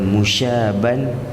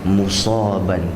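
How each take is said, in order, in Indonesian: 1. Huruf tengahnya bunyi 'sh'. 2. Huruf tengahnya bunyi 's' biasa. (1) "bukan dengan huruf shin" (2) "mesti dibaca dengan huruf sad"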